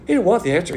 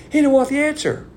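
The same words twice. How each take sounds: First: Said in the usual way. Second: HE pitched much higher, whole line louder and falling; emphatic repeat. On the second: Shown as a demonstration. Preacher insisting to the congregation that Pilate refused, emphatic. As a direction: hammer the point home on HE.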